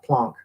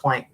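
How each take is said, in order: First: Planck is pronounced the German way. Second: Planck is pronounced the English way. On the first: This is the original, proper pronunciation. "my original physics professor was from Austria, and he always called the guy Planck" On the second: This is how people commonly say it now. "but we all talk about Planck now"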